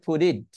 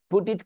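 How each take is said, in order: First: "put it" run together as "pudit"; linked flap T. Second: First "put it" with the T sounded; clear T. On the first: Teacher showing connected speech, linked flap T. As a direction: tap the T between "put it" like D. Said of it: "connecting করে স্পিচের মতো". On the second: Teacher quoting the words before linking, clear T. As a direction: release the T joining "put it". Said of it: "কে বলা যায়". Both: Shown as a demonstration.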